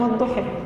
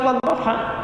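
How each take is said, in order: First: The final vowel is shifted toward e. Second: The final vowel is a clear open a. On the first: This is another accepted reading with the same meaning. "ada yang wadduha" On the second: This is the common reading. "Kita wadduha"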